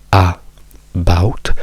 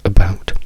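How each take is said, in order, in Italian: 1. La prima vocale è una A aperta piena. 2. La prima vocale è una schwa ridotta. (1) "spreco energie a- ad aprire la bocca e dire about" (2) "quindi diciamo uh, about"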